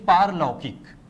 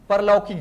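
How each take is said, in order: First: The first vowel is long. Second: The first vowel is short. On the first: The speaker calls it right. "बल्कि पारलौकिक" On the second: The speaker calls it wrong. "परलौकिक नहीं"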